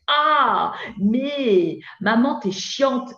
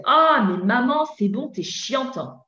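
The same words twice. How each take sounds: First: Put-on drawn-out, higher teen complaint; whiny teenager. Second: Put-on teen snapping back at mum, raised and higher; whiny teenager. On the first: Teenager talking back to his mother, slow and whiny. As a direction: stretch out "maman" like an exasperated ado. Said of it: "quand mon ado me dit". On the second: Teenager talking back to his mother, whiny and raised. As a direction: play the irritated ado brushing mum off. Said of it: "il vous dit".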